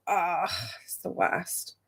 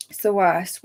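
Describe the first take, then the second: First: Soft, slow groan; much softer slow ugh; sympathetic groan. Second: Said in the usual way. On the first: Real, not acted. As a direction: commiserate heavily.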